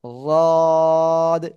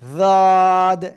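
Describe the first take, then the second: First: The consonant is made with the tongue's side edge. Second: The consonant is made with the tongue's front. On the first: The speaker calls it right. "তাহলে বলতে হবে কিরকম? এই যে ওয়াদ" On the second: The speaker calls it wrong. "অনেকে এরকম বলতেছেন ওয়াদ, এরকম বললে হবে না কিন্তু"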